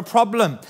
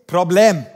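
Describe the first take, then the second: First: Said in the usual way. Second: English word put into a Bulgarian accent; Bulgarian-accented "problem", said loud and deliberate. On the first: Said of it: "It is the Bulgarian word for problem". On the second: Shown as a demonstration. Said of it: "say it with an accent".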